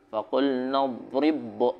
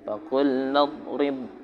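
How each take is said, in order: First: The b sound is bounced with a release. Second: The b sound merges straight into the next. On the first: The speaker calls it wrong. "enggak usah dikolkolain meskipun ba ini huruf qalqalah. Jadi enggak boleh" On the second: The speaker calls it right. "Langsung aja masukin"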